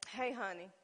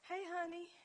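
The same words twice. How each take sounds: First: It is said in an irritated, sharper tone. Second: It is said in a warm, sweet tone. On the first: He has made her mad. "Then you make a man" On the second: She is happy with him. "a woman started out"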